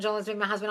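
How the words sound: It is said flatly, like a robot.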